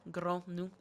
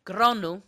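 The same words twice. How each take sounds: First: "Granu" said as GRAH-noo; "Granu" ending in a plain "nu" sound, not "wy"; name pronounced. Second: Name called out. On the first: Explaining the name to a friend, "Granu" said as GRAH-noo. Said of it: "it's a Nu". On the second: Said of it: "even though there's a W and a Y at the end of his name". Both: Shown as a demonstration.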